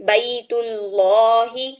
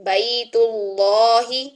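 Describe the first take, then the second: The two takes are said the same way.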